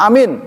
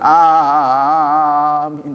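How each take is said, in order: First: The vowel is clipped very short. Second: The vowel is drawn out very long. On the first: "pendek, jangan ditiru" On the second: "jangan begitu kepanjangan"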